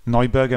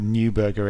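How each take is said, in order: First: The name is pronounced with German sounds. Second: The name is pronounced with English sounds. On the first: "I'm saying it the German way" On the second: "maybe pronounce it Neuberger in English"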